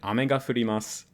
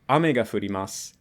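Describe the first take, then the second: First: Ame has the pitch accent of 'candy'. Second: Ame has the pitch accent of 'rain'. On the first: Candy is falling from the sky. "which is it would mean candy" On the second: Rain is falling. "which would be it rains"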